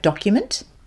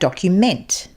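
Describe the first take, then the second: First: It has the noun pronunciation of the word. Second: It has the verb pronunciation of the word. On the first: It names a written record. "which is a noun" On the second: It means to record details. "which is slightly different pronunciation, meaning a verb"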